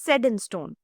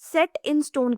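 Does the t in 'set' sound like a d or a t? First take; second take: d; t. First: The t in 'set' sounds like a d. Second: The t in 'set' is a clear t. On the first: The speaker calls it right. "इसका pronunciation change हो जाता है" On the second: The speaker calls it wrong. "सेट in stone की जगह"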